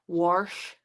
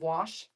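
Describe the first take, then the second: First: It is said in a Hoosier accent. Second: It is said in a standard accent. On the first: The speaker calls it wrong. "Hoosiers are known to say" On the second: The speaker calls it right. "instead of"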